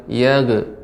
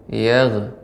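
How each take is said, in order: Both takes have the same delivery.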